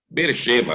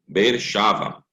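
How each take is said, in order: First: The second part has an e vowel. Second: The second part has an a vowel. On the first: This is the ordinary name of the city. "Beer-sheva é o nome da cidade" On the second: The word stands at a pause or verse end. "Como está no final do versículo, ou no, na questão da pausa"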